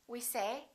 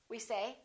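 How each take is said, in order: No difference in how they are said.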